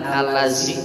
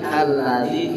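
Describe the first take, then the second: First: The consonant is a plain 'z' sound. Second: The consonant is a buzzing 'dh' sound. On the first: The speaker calls it wrong. "jangan alazi" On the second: The speaker calls it right. "Alladzi alladzi ini zal"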